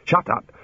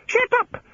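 First: Higher-pitched, exasperated order; irritated retort. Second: Very high squawked echo; mimicking bird. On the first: Digger to the screaming birds, irritated. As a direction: tell the pests off. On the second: Birds echoing the digger's order, squawking. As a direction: parrot it back in a screech. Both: A narrator's reading.

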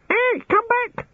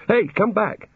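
First: Very high parrot screech; screaming birds. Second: Higher-pitched urgent call. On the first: Birds in the bushes echoing him, screaming. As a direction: screech it back like a mimicking bird. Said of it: "screamed the birds in the bushes". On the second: Digger to the vanishing puddle, calling out. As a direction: call it after something escaping. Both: A narrator's reading.

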